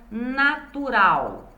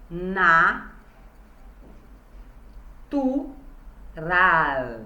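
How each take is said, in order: First: Said in the usual way. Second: "Na, tu, ra" with long pauses between syllables; part by part. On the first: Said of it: "a palavra". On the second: Shown as a demonstration. Teacher showing how to separate syllables, "Na, tu, ra" part by part. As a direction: sound out "Na, tu, ra" one syllable at a time. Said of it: "fala parte por parte da palavra".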